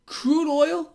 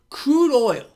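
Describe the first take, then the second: First: "Crude oil" pitched high, lifting like a question; high, prodding question on "Crude oil"; questioning repeat. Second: CRUDE OIL called out loud and high, falling at the end; punchy, high "Crude oil" as a statement; emphatic announcement. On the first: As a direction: ask "Crude oil" with raised, rising pitch. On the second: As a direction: announce "Crude oil" loudly, pitch dropping to close. Announces topic, then repeats as question. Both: Real, not acted.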